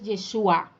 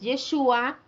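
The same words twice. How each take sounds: First: The stress is on the final syllable. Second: The stress is on the middle syllable. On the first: It means salvation. "con el acento en la vocal A" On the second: It means he will save. "con acento en la U"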